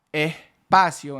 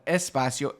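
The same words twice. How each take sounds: First: "espacio" as "ehpacio", S breathed out as h; aspirated S. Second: "espacio" with a crisp S; full S. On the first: Teacher pointing out the aspirated Caribbean S. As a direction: soften the S to a breath. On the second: Teacher giving the textbook form. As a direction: say the S cleanly. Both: Shown as a demonstration. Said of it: "instead of espacio".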